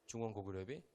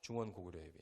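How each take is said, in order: First: 중원 고구려비 asked with a rising end; quizzing rise. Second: Said in the usual way. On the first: Shown as a demonstration. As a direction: toss 중원 고구려비 back as a question. Quiz question to the audience. (끝을 올려 묻는 중원 고구려비)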